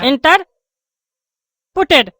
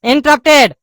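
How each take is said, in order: First: इंटरपुटेड said in-ter-pu-ted, with an extra u sound; wrong pronunciation. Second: इंटरप्टेड said in-ter-rup-ted, no extra vowel; correct pronunciation. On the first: Acted. Pupil mispronouncing a word in front of the teacher, इंटरपुटेड said slowly. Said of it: "ये क्या इंटरपुटेड बोल रहा है". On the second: Shown as a demonstration. Teacher showing the right pronunciation, इंटरप्टेड said cleanly. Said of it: "बोलो इंटरप्टेड".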